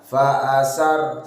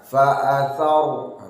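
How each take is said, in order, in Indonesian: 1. Konsonannya bunyi s biasa. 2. Konsonannya bunyi th. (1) "jangan sampai dibaca sin ya" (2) "Roknya ditebalkan"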